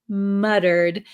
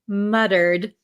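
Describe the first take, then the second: First: It is said with an American pronunciation. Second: It is said with an American pronunciation.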